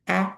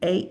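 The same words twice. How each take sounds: First: The vowel is said with its short sound. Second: The vowel is said with its long sound. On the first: The syllable is closed by a consonant. "when I have a vowel followed by a consonant" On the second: The syllable ends in a vowel. "the long vowel sound"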